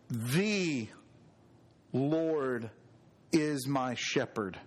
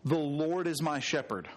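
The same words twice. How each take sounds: First: THE drawn out and set apart by a pause; stress on THE. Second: Said in the usual way. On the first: Shown as a demonstration. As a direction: lean on "The", pause, then the rest slowly. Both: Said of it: "emphasize each word".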